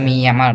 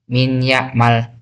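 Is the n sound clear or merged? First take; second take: merged; clear. First: The n merges into the y with nasal hum. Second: The n is pronounced separately before the y. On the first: The speaker calls it right. "dibaca miyamal" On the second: The speaker calls it wrong. "bukan minyamal"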